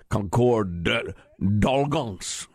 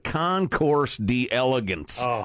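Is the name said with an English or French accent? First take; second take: French; English. First: The name is said with a French pronunciation. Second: The name is said with an English pronunciation. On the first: "trying to pronounce it properly in the French" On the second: "Don't bother"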